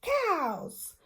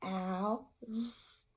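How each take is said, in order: First: Cows said quickly as one word; blended word after stretching; said fast. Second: Cows drawn out slowly and softly; stretchy snake demo; stretched-out word. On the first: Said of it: "you're gonna say it fast". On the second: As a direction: slide through each sound of cows. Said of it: "you're gonna go". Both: Shown as a demonstration.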